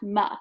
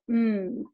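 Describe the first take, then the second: First: The sound has an extra vowel after it. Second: The sound is short with no vowel after. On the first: The speaker calls it wrong. "not M" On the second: The speaker calls it right. "the letter M spells the sound M"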